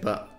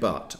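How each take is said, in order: First: The final t is dropped. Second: The final t is clearly pronounced. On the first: "I'm saying but" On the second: "I'm not saying but"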